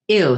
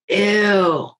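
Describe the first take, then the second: First: It is read in the reader's plain voice. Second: It is read in a changed character voice.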